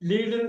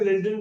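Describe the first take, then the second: First: The vowel is a long 'ee' sound. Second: The vowel is a short 'e' sound. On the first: "லீடுன்னு சில வாட்டி படிப்பீங்க" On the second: "லெட்னு சில வாட்டி படிப்பீங்க"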